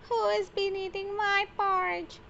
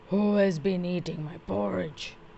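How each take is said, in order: First: It is said in a tiny, squeaky voice. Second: It is said in a deep, gruff voice.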